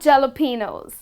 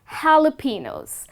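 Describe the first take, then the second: First: The word begins with a J sound. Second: The word begins with an H sound. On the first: The speaker calls it wrong. "It is not jalapenos" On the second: The speaker calls it right. "the correct way to pronounce this word is jalapenos"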